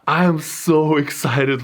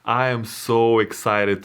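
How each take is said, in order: First: It is said with lively, enthusiastic energy. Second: It is said flatly, without much enthusiasm. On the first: The speaker calls it right. "Let me try this again" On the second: The speaker calls it wrong. "this didn't sound too excited"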